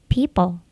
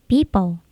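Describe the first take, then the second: No difference in how they are said.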